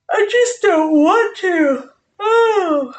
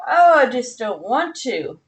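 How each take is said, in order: First: High, slow, tearful whimper; mock whine. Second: Said in the usual way. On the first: Streamer whining to viewers about lumberjacks, mock tearful. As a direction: whimper it like a sulking child.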